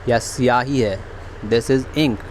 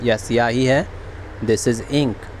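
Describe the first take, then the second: No difference in how they are said.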